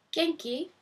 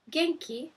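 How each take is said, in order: Both takes have the same delivery.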